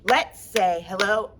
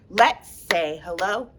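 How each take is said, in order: No difference in how they are said.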